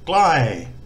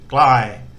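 First: The word is said with a falling tone. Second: The word is said with a level mid tone. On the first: It means near. "So near has got a falling tone" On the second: It means far. "and far has got a mid-tone"

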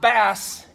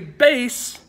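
First: It is said like the fish 'bass'. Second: It is said like the word 'base'. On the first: It names a fish. The speaker calls it wrong. "not bass. It's not a fish" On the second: It names the low-pitched clef. The speaker calls it right. "Make sure you say bass"

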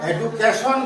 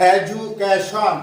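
First: The middle consonant is a plain d sound. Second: The middle consonant is a j sound. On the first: The speaker calls it wrong. "আমরা সাধারণত এডুকেশন বলে থাকি, কিন্তু সেটা ভুল উচ্চারণ" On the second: The speaker calls it right. "তার উচ্চারণটা হবে জ"

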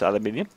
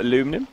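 First: The word is said the British way. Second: The word is said the American way. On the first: "But I'm British, so it's aluminium" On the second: "if you're American"

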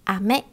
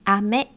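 First: The pitch rises across the word. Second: The pitch rises across the word.

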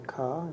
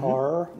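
First: The final R is dropped, Boston style. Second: The final R is clearly pronounced.

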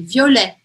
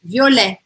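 First: The first vowel is relaxed, with stress at the end. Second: The same.

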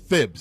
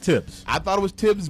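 First: The name begins with a lisped th sound. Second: The name begins with a plain t sound. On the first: The speaker calls it right. "but it's Thibs" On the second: The speaker calls it wrong. "I thought it was Tibs"

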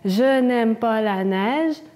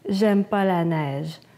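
First: The negative 'ne' is pronounced before the verb. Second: The negative 'ne' is left out entirely. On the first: This is the standard, formal negation. "au lieu de dire ne pas" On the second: This is the familiar, everyday way of speaking. "on fait seulement pas"

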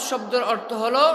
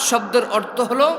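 No difference in how they are said.

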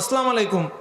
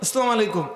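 First: The greeting is pronounced in a distorted, sloppy way. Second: The same.

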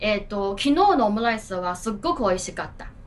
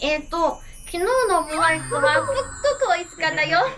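First: It is said plainly, without acting. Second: It is said dramatically, with added acting.

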